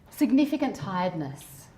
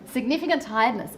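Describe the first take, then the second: First: It is said in a calm, sleepy tone. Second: It is said in a bright, upbeat tone.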